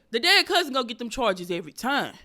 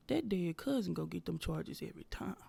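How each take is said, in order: First: Louder, forceful repeat of a joke line; emphatic punchline. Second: Quiet, low-key joke line; hushed aside. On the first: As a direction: punch it out loud and insistent. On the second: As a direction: say it under your breath, almost whispered. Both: Acted.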